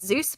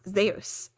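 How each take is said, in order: First: It is said the usual English way. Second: It is said the Greek way. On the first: The speaker calls it wrong. "a lot of people pronounce it Zeus" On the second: The speaker calls it right. "It's actually pronounced Zeus"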